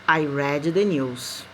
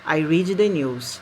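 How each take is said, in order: First: The verb read has its past-tense pronunciation. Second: The verb read has its present-tense pronunciation. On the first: The reading happened before. "Eu li as notícias" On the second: The reading happens now. "Eu leio as notícias"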